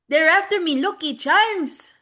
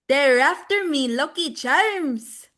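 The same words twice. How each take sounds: First: It is said a little faster. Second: It is said at a normal pace.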